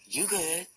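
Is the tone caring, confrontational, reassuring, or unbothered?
unbothered. It sounds casual and unbothered, brushing things off. Saying the speaker is not bothered. "I ain't tripping"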